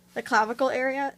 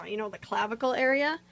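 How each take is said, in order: First: Clavicle lifted a bit higher and firmer; stress on clavicle. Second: Said in the usual way. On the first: Real, not acted. Repeating the clavicle area for viewers, stress on clavicle. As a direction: lean on the word clavicle.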